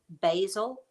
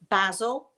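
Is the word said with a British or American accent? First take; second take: American; British. First: It is said with an American accent. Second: It is said with a British accent.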